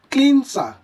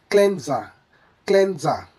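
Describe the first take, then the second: First: "cleanser" as kleen-sa, hissed s, higher and louder; mispronounced cleanser. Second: "cleanser" as klen-za, short e; correct cleanser. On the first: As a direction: say "cleanser" with long ee and an s. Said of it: "never pronounced as". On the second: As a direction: say "cleanser" with a z sound. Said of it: "should be pronounced correctly as". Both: Shown as a demonstration.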